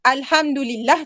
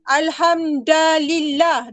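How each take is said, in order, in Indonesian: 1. Vokal setelah hamd adalah u. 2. Vokal setelah hamd adalah a. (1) "Daripada baris depan" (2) "kamu baca jadi baris atas"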